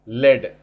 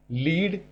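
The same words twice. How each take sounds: First: लेड said as "led", short e like the metal, a bit louder; pronounced led. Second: लीड said as "leed", long ee like in leader; pronounced leed. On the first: Teacher contrasting लेड, the metal, with लीड. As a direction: say लेड short, rhyming with bed. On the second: Teacher showing लीड as "leed" before the metal word. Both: Shown as a demonstration. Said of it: "spelling देखो".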